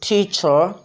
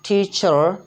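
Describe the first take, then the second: First: The final r is lightly pronounced. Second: The final r is lightly pronounced.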